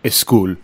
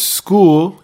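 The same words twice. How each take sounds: First: A vowel sound is added before the s. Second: The word starts directly with the s sound. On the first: "insert a vowel before the word" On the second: "if the word is school"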